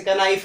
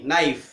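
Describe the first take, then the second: First: कनाइफ with "ka" up front; sounded K. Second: नाइफ begun on n; silent K. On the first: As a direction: say कनाइफ, k wrongly voiced. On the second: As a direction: say नाइफ without the k. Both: Shown as a demonstration. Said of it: "कनाइफ नहीं".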